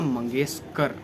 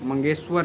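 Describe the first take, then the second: First: The last syllable starts with a 'k' sound. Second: The last syllable starts with a 'v' sound. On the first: The speaker calls it right. "उनका नाम था [name]" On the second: The speaker calls it wrong. "मंगेशवर नहीं"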